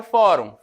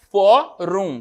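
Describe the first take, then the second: First: Said in the usual way. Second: "Fórum" broken as FÓ, rum, first part loud; split into syllables. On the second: Shown as a demonstration. Teacher showing Fórum as duas sílabas, split and loud. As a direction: separate "Fórum" into two beats, FÓ punched. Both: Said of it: "como é que eu separo o fórum".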